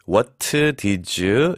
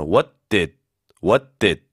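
First: "What did you" with an added vowel after each final consonant; extra vowel added. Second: "What did" with t and d held, no vowel after; clean stopped endings. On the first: Teacher showing Korean learners' mistake, "What did you" split into extra syllables. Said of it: "음절을 두 개 만드시는데". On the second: Teacher showing correct "What did", ending dead on the d. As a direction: cut "What did" off on the tongue ridge, unreleased. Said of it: "딱 끝나요, 여기서". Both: Shown as a demonstration.

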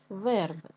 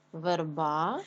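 First: Верби stressed on the first syllable, е. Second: Верба with the final а stressed and drawn out; stretched last vowel in верба, teacher demonstrating. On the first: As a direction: hit the е in верби, let the ending fall. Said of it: "падає наголос на е". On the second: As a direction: lean on the last syllable of верба. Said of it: "падає на а". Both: Shown as a demonstration.

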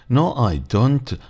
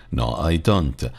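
First: Slow, high, careful teacher model of No, I don't; drawn-out No, I don't with every word clear; slow model answer. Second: Said in the usual way. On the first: Shown as a demonstration. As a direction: spell out No, I don't slowly for the class. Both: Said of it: "والسبب أن ذلك منفي".

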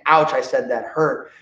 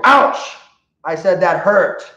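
First: Said in the usual way. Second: High, loud yelp then a firm "I said that hurt"; firm ouch. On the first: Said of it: "I like saying". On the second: Shown as a demonstration. Trainer showing owners the second warning, loud yelp. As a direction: startle the dog with a hurt cry. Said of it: "where we're gonna go".

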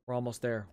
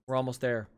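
Both takes have the same delivery.

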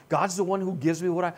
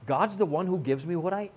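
No difference in how they are said.

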